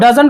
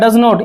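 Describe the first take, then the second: First: It is said as one contracted word. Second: It is said as two full words.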